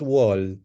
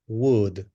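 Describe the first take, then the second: First: The vowel is open, like in 'wall'. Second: The vowel is short, like in 'wood'. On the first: The speaker calls it wrong. "Not wall" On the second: The speaker calls it right. "Would, the pronunciation"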